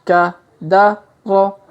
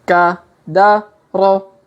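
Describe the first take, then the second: Both takes have the same delivery.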